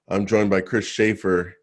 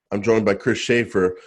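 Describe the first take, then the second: No difference in how they are said.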